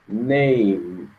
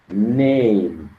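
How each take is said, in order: No difference in how they are said.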